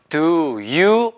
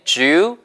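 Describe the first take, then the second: First: Both words are said fully and separately. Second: The words blend quickly into one short syllable.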